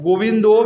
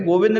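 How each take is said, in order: First: The name ends with an o vowel. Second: The name ends on the consonant with no vowel. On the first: "गोविंदो भी नहीं होता है" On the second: "गोविंद नहीं होता है"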